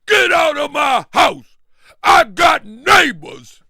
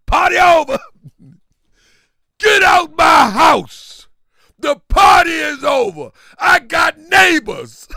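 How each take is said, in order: First: High, loud, slow shout; mock angry yell. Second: High, loud, drawn-out shout; mock angry yell. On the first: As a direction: drag out the eviction yell. Repeats host's yell. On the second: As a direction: yell at the guests to get out. Quoting angry host ending party.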